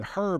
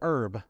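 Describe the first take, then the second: First: The word begins with an audible h sound. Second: The word begins with no h sound.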